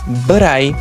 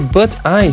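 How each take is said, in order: First: The two words are joined into one. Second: The two words are said separately.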